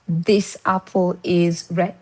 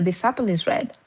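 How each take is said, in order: First: Each word is said separately and clearly. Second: The words are run together into one stream. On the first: "this is how it is written" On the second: "when they're speaking, you'll hear"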